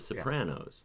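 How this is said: The word is said with an anglicized American pronunciation. "on the show they always said the Sopranos"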